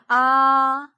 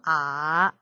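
First: The pitch stays high and level. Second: The pitch dips low.

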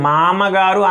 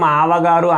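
First: The second syllable is a plain ma sound. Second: The second syllable is a plain oral va. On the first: "మామగారు అనకూడదు" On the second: "మావగారు అనకూడదు"

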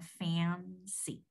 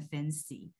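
First: The first vowel is clear with a nasal quality. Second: The first vowel is vague and not clearly pronounced. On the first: The speaker calls it right. "它有一个鼻音在那里嘛，所以你念起来是像fancy" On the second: The speaker calls it wrong. "不然你会念成fancy"

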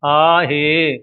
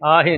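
First: The word ends in a long e vowel. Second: The word ends in a short i vowel. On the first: The speaker calls it right. "ਹੇ ਲੰਮਾ ਕਰਕੇ ਬੋਲਣਾ ਹੈ" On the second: The speaker calls it wrong. "ਹਾਏ ਸਿਹਾਰੀ ਲਾ ਕੇ ਆਹੇ ਨਹੀਂ ਬੋਲਣਾ"

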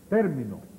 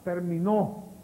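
First: The stress is on the first syllable. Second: The stress is on the last syllable. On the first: "Esdrújula"

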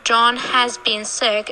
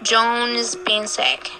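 First: The word 'has' is said in full. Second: The word 'has' is shortened to a 'z' sound. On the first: "We don't say John has been sick unless we want to focus on who's been sick" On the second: "So we say John's been sick"

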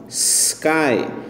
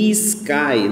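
First: It starts directly with a blown s sound. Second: An extra vowel sound comes before the s. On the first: The speaker calls it right. "S para fora" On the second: The speaker calls it wrong. "Nunca fale sky. Não existe essa pronúncia em inglês"

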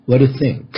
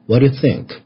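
First: The words are said lightly and run together. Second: The same.

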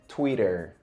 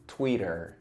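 First: It is said with an English pronunciation. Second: The same.

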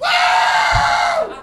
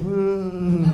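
First: It is an excited, energetic cheer. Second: It is a flat, hopeless cheer.

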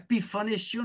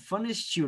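First: The name begins with a separate P sound. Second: The name begins with a plain F sound. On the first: The speaker calls it wrong. "não é Pifanestiel não" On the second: The speaker calls it right. "é Fanestiel"

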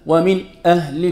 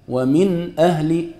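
First: There is a pause between the words. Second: The words run together without a pause.

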